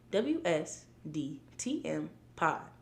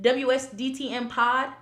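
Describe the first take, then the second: First: The letters are spoken at a slower pace. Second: The letters are spoken at a quicker pace.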